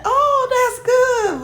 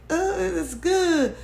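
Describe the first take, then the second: First: Drawn-out, much higher mock gush; fake gushing. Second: Slow, higher, half-hearted mock approval; fake approval. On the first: Vlogger mocking the woman's fake delight, slow high gush. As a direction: imitate her faking delight, stretched slow. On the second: Vlogger mimicking her forced approval, slow and half-hearted. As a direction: drag it out like forced politeness. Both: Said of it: "But it was a fake".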